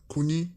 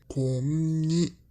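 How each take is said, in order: First: The n sound is short and single. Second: The n sound is held long, doubled. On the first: The speaker calls it wrong. "pas koni" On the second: The speaker calls it right. "mais konni"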